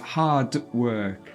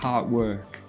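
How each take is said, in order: First: The final d of hard is clearly pronounced. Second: The final d of hard is left out. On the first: The speaker calls it right. "The sound d needs to be pronounced" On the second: The speaker calls it wrong. "you don't say the D"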